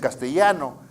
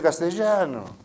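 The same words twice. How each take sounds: First: It is said with a Lima accent. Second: It is said with an Argentine accent. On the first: "los limeños dicen castellano" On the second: "los argentinos dicen castellano"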